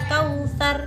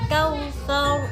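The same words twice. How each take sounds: First: The final r is thin, with spread lips. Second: The final r is thick, with rounded lips. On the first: The speaker calls it wrong. "jadi tidak meringis. Kautsar tidak ya" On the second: The speaker calls it right. "roknya tebal, mulutnya agak mencucu"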